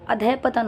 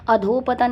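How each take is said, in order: First: अधः पतन with a light breath after adha; correct form adhah patan. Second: अधोपतन run together with an o, adho-patan; wrong form adhopatan. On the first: Teacher giving students the correct अधः पतन. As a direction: say अधः, small break, then पतन. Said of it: "अधः पतन होता है". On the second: Teacher showing students the wrong अधोपतन. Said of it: "अधोपतन नहीं होता है". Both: Shown as a demonstration.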